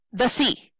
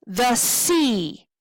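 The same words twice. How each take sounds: First: "the" weighted, "sea" short; stress on THE. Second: Light "The", long falling "sea"; stress on SEA. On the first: Teacher offering the wrong stress, weighted "the", short "sea". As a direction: lean on "the" and cut "sea" short. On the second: Teacher testing the stress of a line, long "sea". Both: Shown as a demonstration. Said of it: "Now, do we say".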